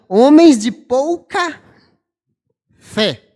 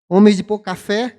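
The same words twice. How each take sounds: First: The phrase is said slowly, each word kept apart. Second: The phrase is said quickly, sounds running together. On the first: The speaker calls it right. "Não" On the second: The speaker calls it wrong. "Se eu falar rápido"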